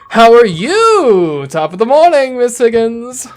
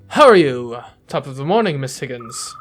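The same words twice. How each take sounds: First: It is said in a high, annoying voice. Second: It is said in a normal voice.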